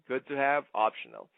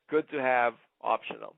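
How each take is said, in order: Both takes have the same delivery.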